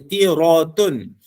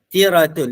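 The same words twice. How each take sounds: First: The r sound is heavy and thick. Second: The r sound is light and thin. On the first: The speaker calls it wrong. "Dia tak baca tiratun" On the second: The speaker calls it right. "bacaan ra itu dia agak sedikit ringan"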